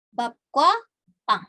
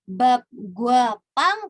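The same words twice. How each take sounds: First: The second word starts with a tense kk. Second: The second word starts with a plain g. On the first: The speaker calls it right. "guanya berubah menjadi kwa" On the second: The speaker calls it wrong.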